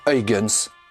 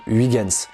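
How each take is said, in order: First: The name is said with Dutch pronunciation. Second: The name is said with French pronunciation. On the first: The speaker calls it right. "il faut dire Huygens, car c'est un nom néerlandais" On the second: The speaker calls it wrong. "à la française, nous prononçons Huygens"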